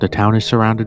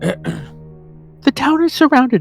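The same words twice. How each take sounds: First: It is said without Judy's character voice. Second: It is said in Judy's character voice.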